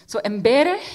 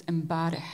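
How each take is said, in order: First: Embereh said as the Lebanese word for yesterday. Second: Embareh said with the Syrian vowel for yesterday. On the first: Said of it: "is yesterday in Lebanese". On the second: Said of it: "in Syrian". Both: Shown as a demonstration.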